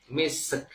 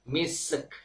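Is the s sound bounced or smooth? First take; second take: bounced; bounced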